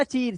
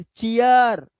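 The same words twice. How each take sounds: First: चीर as one syllable, plain ee; long ee misreading. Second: चीयर in two syllables, chi-yar; ee-ya sound. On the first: Teacher showing what not to read, one syllable. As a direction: say चीर with ee straight into r. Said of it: "अब इसे चीर मत पढ़ना". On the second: Teacher showing the correct reading, two drawn-out syllables. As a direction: stretch चीयर out as chi-yaar. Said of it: "इया की आवाज". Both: Shown as a demonstration.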